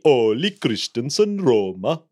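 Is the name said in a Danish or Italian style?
Danish. The name is said with a Danish-sounding accent. The speaker calls it right. "It should be Ole Christensen Rømer"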